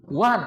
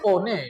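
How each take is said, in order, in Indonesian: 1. Dilafalkan 'wan'. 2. Dilafalkan sesuai ejaannya, 'o-ne'.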